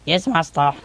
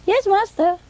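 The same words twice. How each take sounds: First: Man's voice. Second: High-pitched imitated boy assistant; boy's voice. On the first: Retold or imitated. Parrot mimics male assistant answering owner, man's voice. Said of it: "say it in a man's voice". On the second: Parrot mimics young assistant answering owner, boy's voice. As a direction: answer in a high boyish pipe. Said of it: "say it in a boy's voice".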